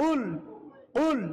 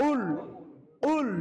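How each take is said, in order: No difference in how they are said.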